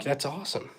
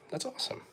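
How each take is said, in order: First: Said in the usual way. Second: Whispered echo. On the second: Real, not acted. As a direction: breathe it out as an aside. Repeats whispered.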